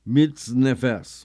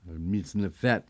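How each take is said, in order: First: The word ends with an s sound. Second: The word ends with a t sound. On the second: "We pronounce it as a T, as it should be"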